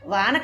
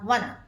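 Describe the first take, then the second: First: The first vowel is drawn out long. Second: The first vowel is short and clipped. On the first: The speaker calls it wrong. "వాన కాదమ్మా" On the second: The speaker calls it right.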